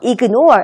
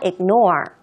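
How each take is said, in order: First: The g sound is clearly pronounced. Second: The g sound is barely pronounced. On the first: The speaker calls it wrong. "ignore 하는 게 아니라" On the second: The speaker calls it right. "지금 G 발음 거의 안 하고 있죠?"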